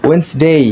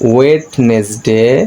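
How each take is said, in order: First: It is said in two syllables without that d. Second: It is said in three syllables with a d sound. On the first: The speaker calls it right. "এটা সঠিক উচ্চারণ হচ্ছে ওয়েন্সডে" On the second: The speaker calls it wrong. "আমরা বেশিরভাগই এটাকে ভুলভাবে পড়ি ওয়েডনেসডে"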